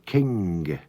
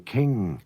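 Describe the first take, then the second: First: The word ends with an audible hard g. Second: The word ends in ng with no hard g. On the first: This is how it was said in Victorian English. "They used to pronounce the final G on king" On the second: This is the modern way of saying it. "We don't do that now. We say king"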